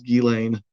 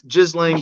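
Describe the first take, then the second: First: The name is said with a French pronunciation. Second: The name begins with a hard 'giz' sound. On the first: "the correct French pronunciation is" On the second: "a lot people say Giz"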